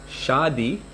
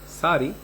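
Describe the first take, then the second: First: The word begins with a sh sound. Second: The word begins with an s sound. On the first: "there's a sha for like the word shadi" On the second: "They may say sari"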